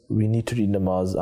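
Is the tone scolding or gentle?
gentle. It is said softly in a gentle tone.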